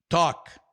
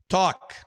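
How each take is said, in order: The two takes are said the same way.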